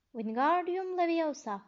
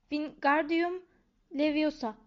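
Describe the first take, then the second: First: Wingardium Leviosa said slowly, higher, with the gar drawn out long; prim know-it-all demonstration of Wingardium Leviosa; careful correct spell. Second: Louder and higher, flailing at the spell; impatient schoolboy bellowing the incantation; frustrated shout. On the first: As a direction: show him how it's done, stretching the gar in Leviosa. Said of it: "Garı uzatacaksın". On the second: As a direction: yell the spell, getting it wrong. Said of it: "diye bağırıyordu". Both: A narrator's reading.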